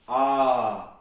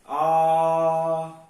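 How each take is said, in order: First: The vowel is held for a short time. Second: The vowel is held for a long time. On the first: "ह्रस्व है" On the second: "दीर्घ है"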